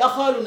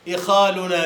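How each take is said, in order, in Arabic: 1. أول حركة هي 'a'، كما في akhaluna. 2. أول حركة هي 'i'، كما في ikhaluna. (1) "أي أخالنا" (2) "لكن هكذا نقول"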